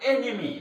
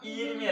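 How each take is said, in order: First: The first vowel is an 'e' sound. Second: The first vowel is a long 'ee' sound. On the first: The speaker calls it right. "എനിമി ശത്രു" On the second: The speaker calls it wrong. "ഈനിമി അല്ല"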